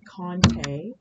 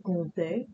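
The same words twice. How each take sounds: First: A clear N sound follows the O. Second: The O is nasal with no clear N. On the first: The speaker calls it wrong. "pronounce it with an N sound instead of an M sound" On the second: The speaker calls it right. "it is kind of a nasally O sound where you swallow the M"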